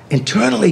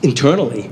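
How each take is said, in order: First: Internally lifted high and pushed as the key word; emphatic repeat. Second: Said in the usual way. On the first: Shown as a demonstration. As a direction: land hard on Internally, higher than the first time. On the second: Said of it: "He made me grow".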